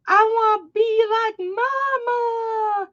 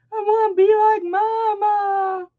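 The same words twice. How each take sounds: First: Put-on high, slow little-kid voice; toddler voice. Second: Put-on high little-kid voice; toddler voice. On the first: Mom imitating her toddler son explaining himself, childlike. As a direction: sound like a tiny boy copying mom. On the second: Mom repeating her toddler son's words, childlike. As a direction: squeak it like a small child. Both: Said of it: "He's like".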